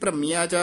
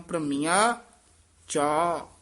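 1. ਦੋਵੇਂ ਸ਼ਬਦ ਬਿਨਾਂ ਰੁਕੇ ਇਕੱਠੇ ਕਹੇ ਜਾਂਦੇ ਹਨ। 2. ਦੋਵੇਂ ਸ਼ਬਦ ਵਿਚਕਾਰ ਰੁਕ ਕੇ ਕਹੇ ਜਾਂਦੇ ਹਨ।

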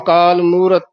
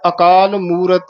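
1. ਅੰਤਲੀ 't' ਧੁਨੀ ਛੱਡ ਦਿੱਤੀ ਜਾਂਦੀ ਹੈ। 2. ਅੰਤਲੀ 't' ਧੁਨੀ ਸਾਫ਼ ਸੁਣਾਈ ਦਿੰਦੀ ਹੈ। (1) "ਕਈ ਵਾਰ ਅਸੀਂ ਤੱਤਾ ਲੋਪ ਕਰ ਦਿੰਦੇ ਹਾਂ" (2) "ਤੱਤੇ ਦੀ ਵੀ ਆਵਾਜ਼ ਆਉਣੀ ਚਾਹੀਦੀ"

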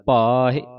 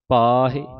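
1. aa ਸਵਰ ਉੱਤੇ ਜ਼ੋਰ ਹੁੰਦਾ ਹੈ ਅਤੇ ਇਹ ਲੰਮਾ ਖਿੱਚਿਆ ਜਾਂਦਾ ਹੈ। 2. aa ਸਵਰ ਉੱਤੇ ਜ਼ੋਰ ਹੁੰਦਾ ਹੈ ਅਤੇ ਇਹ ਲੰਮਾ ਖਿੱਚਿਆ ਜਾਂਦਾ ਹੈ।

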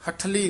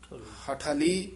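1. ਧੁਨੀਆਂ ਬਿਨਾਂ ਵਿਰਾਮ ਤੋਂ ਜੁੜੀਆਂ ਹੋਈਆਂ ਹਨ। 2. ਪਹਿਲੀ ਧੁਨੀ ਤੋਂ ਬਾਅਦ ਹਲਕਾ ਜਿਹਾ ਵਿਰਾਮ ਹੈ। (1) "ਹਠਲੀ ਨਹੀਂ ਕਹਿਣਾ" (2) "ਹਾਹੇ ਤੇ ਠੱਠੇ ਦੇ ਵਿੱਚ ਡੈਸ਼ ਦੇ ਕੇ"

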